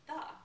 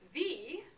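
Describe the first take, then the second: First: The vowel is a short neutral schwa. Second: The vowel is a long E sound. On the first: The speaker calls it right. "when really the word is the, when I say it regularly" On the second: The speaker calls it wrong. "I want a long E there"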